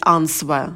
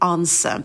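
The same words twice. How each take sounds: First: A w sound is pronounced after the n. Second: No w sound is pronounced after the n. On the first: The speaker calls it wrong. "Частая ошибка — говорить answer" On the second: The speaker calls it right. "а W не произносится. Это будет answer"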